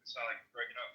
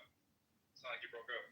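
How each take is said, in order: First: Said in the usual way. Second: Muffled bad connection; underwater sound. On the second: Real, not acted. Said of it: "It's underwater".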